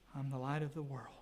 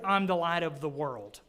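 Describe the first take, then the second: First: It is said in a gloomy, sorrowful tone. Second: It is said in a cheerful, positive tone.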